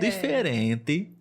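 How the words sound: It is said in another Brazilian regional accent. "em outras regiões poderia ser ... seria mais ou menos assim"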